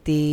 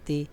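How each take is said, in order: First: The vowel is drawn out long. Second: The vowel is short, not drawn out. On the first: "এখানে টান আছে" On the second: "এখানে টান নাই"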